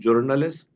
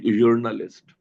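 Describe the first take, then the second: First: The word begins with an English j sound. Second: The word begins with a y sound. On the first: "एक तो जे से सुनेंगे। जैसे अंग्रेजी वाली होती है" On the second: "और एक यूर्नलिस्ट"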